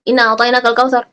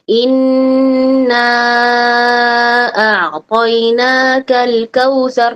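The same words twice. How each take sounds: First: The consonant and the vowel are both said short. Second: A consonant is doubled and a vowel is lengthened. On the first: The speaker calls it wrong. "Dia bacanya" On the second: The speaker calls it right. "harusnya kan ada tasydid di situ, ada fa ada mad di situ"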